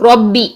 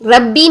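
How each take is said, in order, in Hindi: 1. r भारी है, स्वर ओ जैसा है। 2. r हल्का है, स्वर पतला है। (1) "ओ की साउंड लेकर आएंगे" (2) "रब्बी नहीं"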